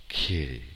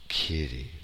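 Both takes have the same delivery.

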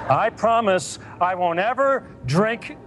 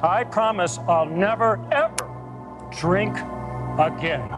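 First: The promise sounds flat and unconvincing. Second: The promise sounds sincere and heartfelt.

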